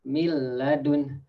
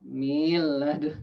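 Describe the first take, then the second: First: The vowel after the m is short. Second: The vowel after the m is drawn out. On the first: The speaker calls it right. "you should read miladun" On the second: The speaker calls it wrong. "some people maybe like adding a ya in the mean"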